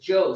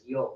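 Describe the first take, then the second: First: The word begins with a J sound. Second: The word begins with a Y sound. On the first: "South America is Joe" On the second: "Central America is yo"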